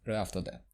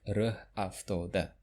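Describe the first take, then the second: First: The phrase is said quickly and smoothly. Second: The phrase is said slowly and carefully. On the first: The speaker calls it right. "we say it fast" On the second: The speaker calls it wrong. "not like"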